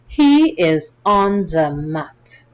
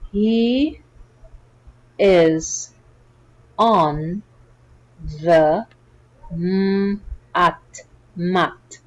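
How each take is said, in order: First: The sentence is read quickly. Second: The sentence is read slowly. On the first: "Let's read it a little faster" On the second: "Slowly at first"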